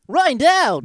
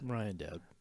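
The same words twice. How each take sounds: First: It is said with more energy. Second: It is said with lower energy.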